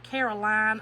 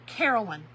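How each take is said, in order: First: "Caroline" ending in a full "line"; long-i Caroline. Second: "Carolyn" ending in a quick "lun"; Carolyn, short ending. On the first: Crafter giving in to temptation with viewer's name, Caroline with long i. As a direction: say "Caroline" as CARE-uh-LINE, louder. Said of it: "I wanna throw a line on there so bad". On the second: Crafter correcting herself on a viewer's name, Carolyn with short ending. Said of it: "I wanna throw a line on there". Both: Shown as a demonstration.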